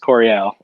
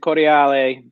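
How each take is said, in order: First: The surname is said with an American pronunciation. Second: The surname is said with an Italian pronunciation. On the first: "but in America, for way too long, they butchered it, and it's Coriel" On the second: "They pronounce it in Italy. They pronounce it Coriale"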